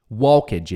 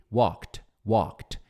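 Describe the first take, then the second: First: "walked" as two syllables, "wal-kedge"; students' mispronunciation. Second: "walked" as "waw" plus KT, one syllable; KT ending. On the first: Teacher imitating students' error, "walked" as "wal-kedge". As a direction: sound the L and the E in "walked". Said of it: "vai falar". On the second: Teacher modelling the right form, KT ending on "walked". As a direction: say "walked" low, like "wokt". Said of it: "wall, e kt". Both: Shown as a demonstration.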